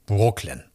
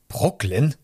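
First: Said in the usual way. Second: Brooklyn as a higher, rising question; surprised call. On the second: A narrator's reading. Registrar reacting to the name, surprised rising Brooklyn. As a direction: query Brooklyn in mild disbelief. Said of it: "rief die Beamtin".

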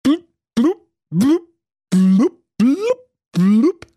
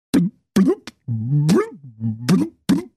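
First: High, loud happy bubbling; joyful blub. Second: Wailing, crying blubbing; dismayed blub. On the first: Prince to his mermaid underwater, joyful high blubbing. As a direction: burble with joy underwater. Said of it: "er rief voller Freude". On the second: Prince to himself underwater, crying blubbing in dismay. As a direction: burble in crestfallen dismay. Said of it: "Da hätt ich aber auch selber drauf kommen können". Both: Acted.

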